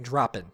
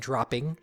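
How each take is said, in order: First: The word ends in -in, without the g. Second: The word ends with a full -ing sound. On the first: "he's dropping the G's" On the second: "instead of saying dropping"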